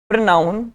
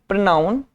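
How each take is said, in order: Both takes have the same delivery.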